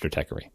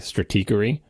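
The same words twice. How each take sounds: First: The E after Strat is a short vowel. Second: The E after Strat is a long vowel. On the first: This is the form the public adopted. "the public has spoken" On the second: This is the form the logo originally intended. "a bar over the E to try to tell you it's a long E"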